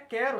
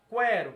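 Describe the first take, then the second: First: The U after the Q is silent. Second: The U after the Q is pronounced. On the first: The speaker calls it right. "É o som de quê? De cá. É um fonema só" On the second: The speaker calls it wrong. "a gente não vai falar"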